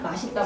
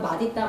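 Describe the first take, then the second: First: An s sound links into the second syllable. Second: A d sound links into the second syllable. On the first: This is the allowed everyday pronunciation. "로도 발음할 수 있게 허용을 한 겁니다" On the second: This is the standard rule pronunciation. "원칙의 발음은"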